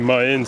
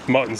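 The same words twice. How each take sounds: First: The T sounds are dropped or softened. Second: The T sounds are clearly pronounced. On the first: The speaker calls it right. "it's supposed to be mutton snapper" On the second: The speaker calls it wrong. "I pronounced the T's by accident"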